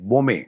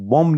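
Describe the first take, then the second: First: The name ends with an added e vowel. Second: The name ends on the consonant m. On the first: The speaker calls it right. "नाम के आगे ए लगता है" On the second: The speaker calls it wrong. "बॉम्ब नहीं है"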